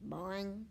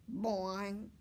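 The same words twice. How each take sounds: First: Twangy frog call; boing it out like a frog; a frog's springy boing. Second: Second boing, a bit louder; a bouncier frog boing. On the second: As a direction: punch the frog call harder. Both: A narrator's reading. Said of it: "He makes a funny sound".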